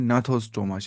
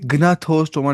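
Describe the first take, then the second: First: The word starts with an N sound, G silent. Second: The word starts with a pronounced G sound. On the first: The speaker calls it right. "इसको जी silent ही पढ़ना होता है" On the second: The speaker calls it wrong. "ये ग्नाथोस्टोमा नहीं पढ़ना"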